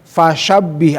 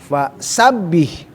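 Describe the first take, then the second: First: The second word begins with an sh sound. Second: The second word begins with a plain s sound. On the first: The speaker calls it wrong. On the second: The speaker calls it right.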